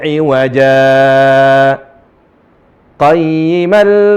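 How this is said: A brief pause separates the two words. The straightness describes the Book, not the crookedness. The speaker calls it right. "perlu saktah. Wajib saktah bahkan"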